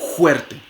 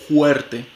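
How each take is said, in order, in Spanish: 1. El primer sonido es un raspado en el velo del paladar. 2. El primer sonido es una fricción suave en la garganta. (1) "lo pueden hacer una fricativa velar sorda" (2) "se puede realizar como una glotal fricativa"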